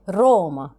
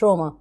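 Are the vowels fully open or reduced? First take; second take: open; reduced. First: The vowels are fully open and clearly sounded. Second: The vowels are reduced and not fully sounded. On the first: The speaker calls it right. "اكيد قصدها روما، اكيد قصدها كده" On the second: The speaker calls it wrong. "بلاش ما تنطقوش الحروف يعني مش روما"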